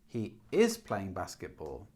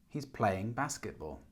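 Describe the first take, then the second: First: The helping verb is stressed. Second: The words playing and basketball are stressed. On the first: The speaker calls it wrong. "we don't do that" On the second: The speaker calls it right. "Playing basketball is, is stressed"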